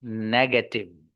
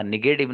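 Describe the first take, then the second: First: नेगेटिव slowly as "negetiv" with a clear e; slow, careful "ne-ge-tiv"; correct pronunciation. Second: नेगेटिव said as "nigetiv" with an i in the first syllable; the mistaken "nigetiv" that learners say; wrong pronunciation. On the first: Teacher giving students the right way, slow "negetiv". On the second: Teacher showing students the wrong way, "nigetiv". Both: Shown as a demonstration. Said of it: "हाँ नेगेटिव नहीं".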